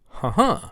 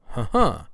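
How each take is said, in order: No difference in how they are said.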